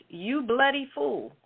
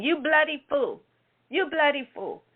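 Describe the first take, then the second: First: Mock Australian duck. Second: Put-on Australian-accented duck. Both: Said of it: "it had an Australian accent".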